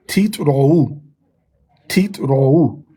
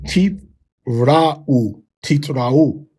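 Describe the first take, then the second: First: "teeth, rou" with rounded ou; Tiberian reading. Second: "teeth, ra'u" with open au. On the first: Shown as a demonstration. Teacher drills Tiberian teeth rou. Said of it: "we would say". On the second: Retold or imitated.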